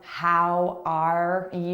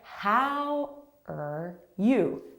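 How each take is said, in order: First: The word 'are' is strong, not reduced. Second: The word 'are' is weak and unstressed. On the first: The speaker calls it wrong. "Notice how that's different from" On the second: The speaker calls it right. "that middle word, weak, very weak"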